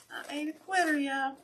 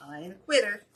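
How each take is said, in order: First: Louder and higher the second time; defiant cheer to the viewers; higher insistent repeat. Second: Said in the usual way. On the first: Real, not acted. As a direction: pitch it up high and insist.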